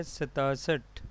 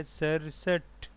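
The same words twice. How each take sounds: First: "सतासठ" said with a long aa, sa-taa-sath; mispronounced number. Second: "सड़सठ" said sar-sath, flapped r and no taa; teacher's careful "सड़सठ", two syllables sar-sath; correct pronunciation. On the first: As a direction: say the wrong form "सतासठ", taa in the middle. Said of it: "इसका गलत तलफ़ुज़ है". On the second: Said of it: "सही तलफ़ुज़ है". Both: Shown as a demonstration.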